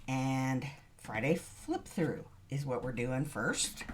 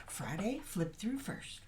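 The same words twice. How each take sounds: First: Said in the usual way. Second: Wired, high and breathy; too much caffeine. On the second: Real, not acted. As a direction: rush it out, overcaffeinated. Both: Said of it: "Sorry, I'm, I'm a bit wired".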